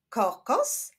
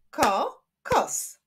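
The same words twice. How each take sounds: First: Said in the usual way. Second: "kokos" broken into ko, kos; two separate beats on "kokos", pause between; syllable by syllable. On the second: Shown as a demonstration. Teacher clapping syllables for pupils, "kokos" split in two. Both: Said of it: "Wyklaszczmy sylaby w tych wyrazach".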